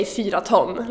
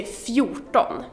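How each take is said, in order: First: "fyra ton" as the full number plus ton; both vowels of "fyra", then separate "ton"; wrong literal form. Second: "fjorton" as one word, starting fju; slow "fjorton" with rt merged into one sound; correct form. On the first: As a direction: say "fyra ton" as two words. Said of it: "you don't say fyra ton". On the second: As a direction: say "fjorton" in two syllables, fju-ton. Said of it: "you say fjorton". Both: Shown as a demonstration.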